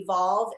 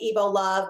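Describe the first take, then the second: First: It is said as two syllables, ending 'volve'. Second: It is said as three syllables, ending 'love'. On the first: "but it's actually Evolve" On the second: "we can pronounce it Evo Love"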